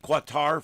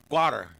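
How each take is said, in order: First: It is said the familiar way, like kuh-tar. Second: It is said so it sounds like gutter. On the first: This is how people here have always said it. "we all called it Qatar for years" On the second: This is how it is said in the Middle East. "It sounds more like gutter, like gutter with a K"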